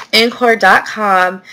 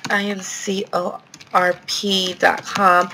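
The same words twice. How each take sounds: First: "Incor dot com" said as one whole word, slowly. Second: "I N C O R P dot com" spelled letter by letter, slowly. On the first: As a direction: read "Incor dot com" as a name, not letters. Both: Shown as a demonstration.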